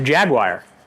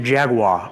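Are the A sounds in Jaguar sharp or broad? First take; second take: sharp; broad. First: It has sharp, quick Colorado A sounds. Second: It has broader, longer East Coast A sounds.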